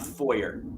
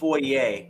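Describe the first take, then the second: First: The word is said with an English-style pronunciation. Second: The word is said with a French-style pronunciation. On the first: The speaker calls it wrong. "not foyer" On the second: The speaker calls it right. "since we're going to get into the French French pronunciations, it's called foyer"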